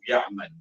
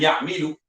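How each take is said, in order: First: The vowel after 'm' is 'a'. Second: The vowel after 'm' is 'i'. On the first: The speaker calls it right. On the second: The speaker calls it wrong.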